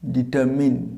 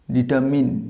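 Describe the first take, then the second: The two takes are said the same way.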